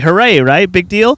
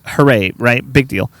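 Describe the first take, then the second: First: It sounds sincere. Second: It sounds sarcastic.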